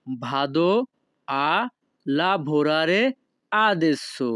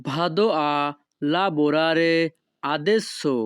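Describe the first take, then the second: First: Each word of "Vado a lavorare adesso." set apart by pauses; slow separated words for a class. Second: Said in the usual way. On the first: Shown as a demonstration. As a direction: break the sentence into single words. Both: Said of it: "তখন আপনাকে বলতে হবে".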